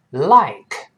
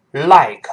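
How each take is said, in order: First: "Like" with the tongue tip forward for L; correct forward L. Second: "like" with the L not made tongue-tip forward; wrong-example "like", tongue tip off the gum ridge; mispronounced L. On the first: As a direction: say "Like" with a clear L, tongue on the upper gum. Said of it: "这个L舌尖往前指". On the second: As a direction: slowly demonstrate a faulty L in "like". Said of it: "不要读like". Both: Shown as a demonstration.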